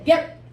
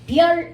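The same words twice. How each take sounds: First: The mouth closes quickly, cutting the ending short. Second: The final sound is held and released normally. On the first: The speaker calls it right. "좀 더 빨리 입을 닫아야 돼" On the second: The speaker calls it wrong. "별 이렇게 발음하지 않고"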